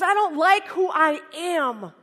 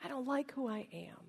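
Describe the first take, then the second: First: Loud, slow, high-pitched protest; upset outcry. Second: Very soft, subdued confession; quiet admission. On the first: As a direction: cry it out, drawing the words out. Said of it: "Now he's really upset". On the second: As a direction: let it sink in quietly. Repeats friend's cry as quiet reflection. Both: Acted.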